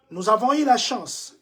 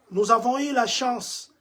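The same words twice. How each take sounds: The two takes are said the same way.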